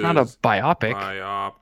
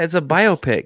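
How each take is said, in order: First: The stress is on the second syllable. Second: The stress is on the first syllable. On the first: It sounds like a word about having two eyes. The speaker calls it wrong. "That's like a person with two eyes" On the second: It is a film about a person's life. The speaker calls it right. "It's like a biography in pictures"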